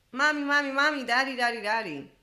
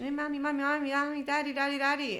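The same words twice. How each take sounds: First: Put-on high and much louder childlike calling of mommy and daddy; a toddler calling out to an unresponsive parent, getting louder; three-year-old crying out. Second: Put-on high, childlike calling of mommy and daddy, repeated; three-year-old calling. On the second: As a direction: play a toddler tugging for a parent's attention. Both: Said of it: "when a three-year-old, imagine".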